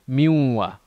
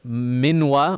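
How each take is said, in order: First: The N merges into the following W sound. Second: The N is said clearly before the W. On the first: The speaker calls it right. "we'd say ... Those are examples of uh, idgham" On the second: The speaker calls it wrong. "instead of"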